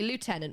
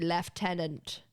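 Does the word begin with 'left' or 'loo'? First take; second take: loo; left. First: The first syllable sounds like 'loo'. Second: The first syllable sounds like 'left'. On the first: "Americans say lieutenant, which would make more sense" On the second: "in the U K, we pronounce this word as left, lieutenant"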